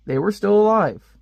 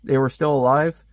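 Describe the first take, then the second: First: Mock amazed. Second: Said in the usual way. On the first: Shown as a demonstration. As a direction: still punched high and loud. Rereading a surprising fact.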